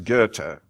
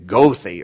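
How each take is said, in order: First: The name is said the German way. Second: The name is said in a non-German way. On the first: The speaker calls it right. "In German, it's Goethe. Pronounce it correctly" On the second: The speaker calls it wrong. "you can't get to heaven if you say Goethe or something like that"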